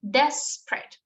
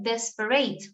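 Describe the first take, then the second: First: It is pronounced the English way, first syllable stressed. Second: It is pronounced with Spanish-style sounds and rhythm. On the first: The speaker calls it right. "in English, we already saw that the pronunciation of this word is desperate" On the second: The speaker calls it wrong. "in Spanish, we would say like desperate"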